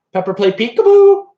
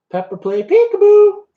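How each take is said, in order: First: Louder call to the bird; calling to parrot. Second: Much higher, louder sing-song coax; high coaxing call. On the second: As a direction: coax the parrot in a high, loud voice. Calling the parrot again, coaxing. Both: Real, not acted.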